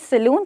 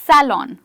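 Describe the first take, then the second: First: The first vowel is a short uh sound. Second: The first vowel is like the a in cat. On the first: The speaker calls it wrong. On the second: The speaker calls it right. "ये ए एप्पल वाला ए है"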